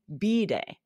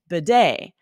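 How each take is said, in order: First: The stress is on the first syllable. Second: The stress is on the second syllable. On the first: This is the British pronunciation. "in British English, they emphasize the first syllable" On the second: This is the American pronunciation. "In the U S, we emphasize the second syllable"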